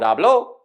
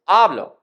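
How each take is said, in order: First: The stress is on the second syllable. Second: The stress is on the first syllable. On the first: He or she spoke, in the past. "with the second syllable stressed" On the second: I speak, in the present. "with the first syllable stressed"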